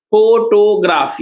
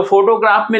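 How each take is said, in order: First: "फोटोग्राफ" slowly as फो-टो-ग्राफ; three syllables. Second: Said in the usual way. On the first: Shown as a demonstration. Teacher counting syllables for students, slow and split. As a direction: stretch and separate each part of "फोटोग्राफ". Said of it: "तीन part में तोड़े तो तीन syllable".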